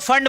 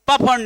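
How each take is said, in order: First: The word begins with an F sound. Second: The word begins with a P sound. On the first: The speaker calls it right. "इसको फंड बोलना सिर्फ, पी silent है" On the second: The speaker calls it wrong. "प फंड नहीं"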